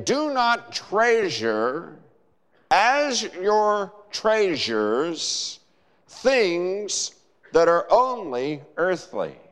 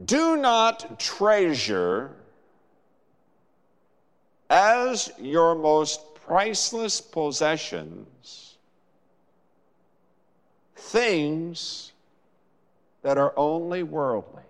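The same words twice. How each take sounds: First: Slow, stressing "Do" and "as"; slow emphatic quote. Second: Slow and deliberate, leaning on "Do"; slow emphatic reading. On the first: Acted. Preacher voicing Jesus's words to the congregation, slow and weighty. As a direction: lay the words down slowly, one by one. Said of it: "Jesus is saying". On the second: Shown as a demonstration. Preacher reading verse nineteen slowly to the congregation, weighty. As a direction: read the Greek sense out word by word, slowly. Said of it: "you would read the language of the Greek text".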